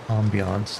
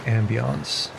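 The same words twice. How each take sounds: First: It is pronounced in a fancy French-like way. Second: It is pronounced in a plain English way.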